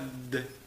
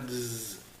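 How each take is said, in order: First: It is a hard d sound. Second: It is a buzzing dz sound. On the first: "c'est pas d" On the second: "c'est pas dz"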